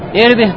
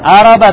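First: The word starts with an i vowel. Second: The word starts with an a vowel. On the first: It means a person's private part. "А можно прочитать «ирби»" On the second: It means a person's passion or need. "то его можно прочитать «араба»"

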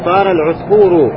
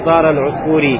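First: The last word ends in the vowel u. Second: The last word ends in the vowel i. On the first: The speaker calls it right. "Поэтому говорим" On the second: The speaker calls it wrong. "не говорим"

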